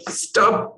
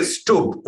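First: Stubb said like "stub", rhyming with tub; Indian pronunciation. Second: Stubb said "Stoob", with the vowel of tube; native pronunciation. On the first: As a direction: say Stubb with the short vowel of tub. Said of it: "we'd say in India". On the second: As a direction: say Stubb with a long "oo". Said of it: "but you say Stubb". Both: Shown as a demonstration.

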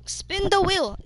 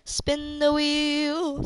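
First: Said in the usual way. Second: Slow, drawn out. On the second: Real, not acted. Repeats slowly to teammate.

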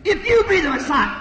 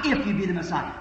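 First: Mocking priests. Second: Said in the usual way. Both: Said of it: "he heard priests saying".

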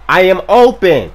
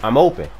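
First: Loud, higher, emphatic call; insistent shout. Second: Said in the usual way. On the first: Real, not acted. Player calling for the ball, insistent shout.

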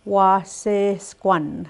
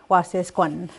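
First: "Wasesquan" stretched slowly, every syllable clear; slow drawn out. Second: Said in the usual way. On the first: Shown as a demonstration. Teacher models the weather word slowly. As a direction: say it slowly for learners.

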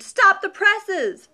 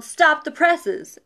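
First: High, slow, loud bellow; stretched-out hammy holler. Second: Slow, stretched newsroom yell; mock editor's yell. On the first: A narrator's reading. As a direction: holler it like a newsroom boss. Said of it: "Mister Owens hollered". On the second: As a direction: retell the old movie line with gusto. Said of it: "the editor yelled".

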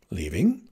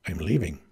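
First: LEAVING starting low and rising sharply; stunned question. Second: Low, falling announcement; firm statement. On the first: Heroine echoes the farm boy's news, stunned and questioning. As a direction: echo LEAVING as a disbelieving question. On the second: Farm boy cuts her off to announce departure, low and firm. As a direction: cut in simply with a lowered pitch. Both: Acted.

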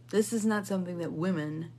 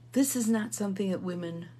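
Both takes have the same delivery.

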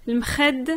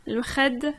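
Both takes have the same delivery.

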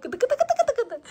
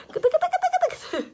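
First: High, playful tickling coo. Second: Very high squeaky tickling coo, slow. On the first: (bebeği gıdıklarken ince, şakacı ses) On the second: (çok ince, yavaş gıdıklama sesi) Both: Real, not acted. Mother tickling the baby.

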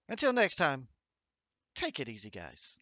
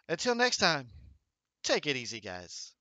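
First: A modest, lightly voiced Biz outro; Biz impression. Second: Biz impression. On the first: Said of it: "best I can do for a Biz impression". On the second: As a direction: copy his closing line, only loosely voiced. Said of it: "I could be like".

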